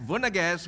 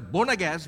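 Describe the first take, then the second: First: The word begins with a V sound. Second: The word begins with a B sound. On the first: The speaker calls it right. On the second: The speaker calls it wrong.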